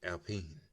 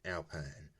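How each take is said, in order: First: The word is said with French pronunciation. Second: The word is said with English pronunciation. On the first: The speaker calls it right. "it's actually Alpine because you know it's a French brand" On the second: The speaker calls it wrong. "A lot of people they don't know how to pronounce this"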